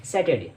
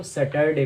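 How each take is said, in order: First: "सैटरडे" as sat-uh-day; correct pronunciation. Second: "सैटरडे" as sa-tar-day, r sounded; children's mispronunciation. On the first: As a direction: say "सैटरडे" with silent r. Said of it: "इसमें आर silent होता है". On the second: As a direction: say "सैटरडे" with an audible r. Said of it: "ज़्यादातर बच्चे इसको". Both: Shown as a demonstration.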